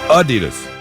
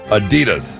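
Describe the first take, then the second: First: The stress is on the first syllable. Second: The stress is on the second syllable. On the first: The speaker calls it right. "It's supposed to be on the first syllable" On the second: The speaker calls it wrong. "not the second syllable"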